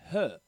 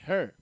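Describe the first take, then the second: First: It is said in a British accent. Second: It is said in an American accent. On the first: "In United Kingdom, they say" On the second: "while in America, they say"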